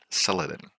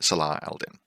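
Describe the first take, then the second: First: The name is said as one anglicized word. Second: The name is said in separate Arabic-style parts.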